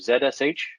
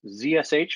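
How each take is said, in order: First: The first letter is said as 'zed'. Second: The first letter is said as 'zee'.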